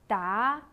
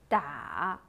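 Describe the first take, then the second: First: The pitch rises from middle to high. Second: The pitch dips low, then rises.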